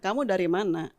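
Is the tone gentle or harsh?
gentle. It is said in a soft, pleasant tone. The question is asked kindly. The speaker calls it right. "Itu kan enak ya"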